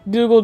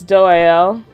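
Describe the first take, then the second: First: The name is said with a hard g sound. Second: The name is said without any g sound. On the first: The speaker calls it wrong. "I know that's not how you pronounce it" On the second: The speaker calls it right. "it's Doael"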